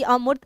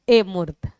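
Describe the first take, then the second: First: The word begins with a short 'uh' vowel. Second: The word begins with an 'ay' vowel. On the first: The speaker calls it right. "सही अमूर्त" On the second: The speaker calls it wrong. "वो इसे अ को ए कर देंगे"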